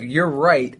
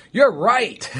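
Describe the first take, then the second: First: Said in the usual way. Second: High and laughing agreement. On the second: Retold or imitated. Quoting own habitual reply.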